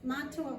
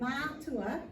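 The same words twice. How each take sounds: First: The first vowel is kept short. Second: The first vowel is held long. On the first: It means father, uncle or male teacher. "on its own" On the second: It means parents. "which has got the macron, so you're just um, doubling the length of that vowel sound"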